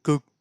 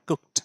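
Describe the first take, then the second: First: The word ends with a d sound. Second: The word ends with a t sound. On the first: The speaker calls it wrong. "ডি বা ইডি সাউন্ডের কিছু ব্যাপার নেই, আমরা করতেও পারবো না। কুকড করা সম্ভব নয়" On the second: The speaker calls it right. "কুকড টি sound দিয়ে শেষ হচ্ছে"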